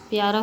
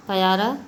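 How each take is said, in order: First: Said in the usual way. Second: प्यारा split as pa-yaaraa; Punjabi pronunciation. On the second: Shown as a demonstration. Teacher showing how Punjabis say it, pa-yaaraa for प्यारा. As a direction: add a short a after the p of प्यारा. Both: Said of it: "Punjabi भाषी".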